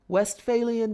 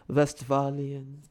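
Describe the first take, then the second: First: The word is said in a plain, light way. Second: The word is said in a heavy, ominous way. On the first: "I'm sure I'm pronouncing that word wrong" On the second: "Sounds more ominous, more weighty, more robust"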